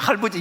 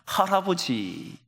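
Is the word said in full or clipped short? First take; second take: clipped; full. First: The word is clipped, like a small child's speech. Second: The word is said in full, all syllables. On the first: "발음도 제대로 안 돼요" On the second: "할아버지 이런 거예요"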